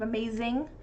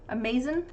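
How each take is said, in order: First: The ending is said fully with the ng sound. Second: The ending is clipped to a short in sound. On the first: "instead of" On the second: "Especially with I N Gs"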